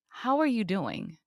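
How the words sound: It is a slow, sincere, caring question.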